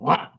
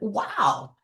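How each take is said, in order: First: It sounds angry. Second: It sounds happy.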